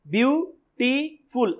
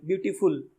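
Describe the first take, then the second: First: beautiful very slowly, view, टी, फुल; split into syllables. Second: Said in the usual way. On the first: Shown as a demonstration. Teacher showing where beautiful breaks, slow separate syllables. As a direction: pause between the three syllables of beautiful. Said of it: "तीन बार टूटेगा ही". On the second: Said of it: "कितने भी speed से बोल लो".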